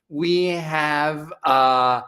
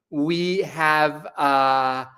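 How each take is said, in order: Both takes have the same delivery.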